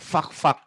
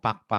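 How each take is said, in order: First: It starts with an F sound. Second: It starts with a P sound, Sundanese-style.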